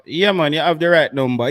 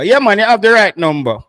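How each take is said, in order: First: Said in the usual way. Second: Louder and higher, emphatic; louder, higher repeat. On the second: Shown as a demonstration.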